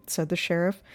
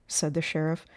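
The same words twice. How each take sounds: The two takes are said the same way.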